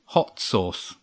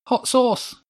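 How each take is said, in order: First: Understated, vindicated repeat; told-you-so. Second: Put-on very high-pitched child voice; excited child's blurt. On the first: Laurie proved right to the others, told-you-so. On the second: Laurie offering an idea, excited high child voice. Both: A narrator's reading.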